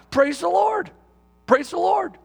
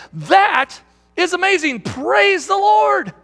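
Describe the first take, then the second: First: Blurted out. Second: Blurted-out praise. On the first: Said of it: "he just kind of blurted out". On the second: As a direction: shout the praise out, stretching Lord. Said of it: "blurts out again". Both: Retold or imitated.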